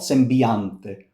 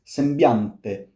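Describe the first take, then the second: First: An extra vowel sound is inserted before 'a'. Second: The 'i' glides smoothly into the 'a'. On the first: The speaker calls it wrong. "It's not sembiante" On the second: The speaker calls it right. "No, it's sembiante"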